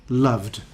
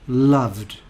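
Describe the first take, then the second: No difference in how they are said.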